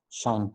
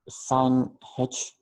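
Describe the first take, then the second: First: It is said as one syllable, like shine. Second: It is said as two syllables, sine then h. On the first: "how do you pronounce it? It is shine" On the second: "we say this as sine h"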